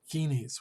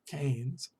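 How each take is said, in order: First: The name rhymes with keen. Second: The name rhymes with cane. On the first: The speaker calls it wrong. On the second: The speaker calls it right.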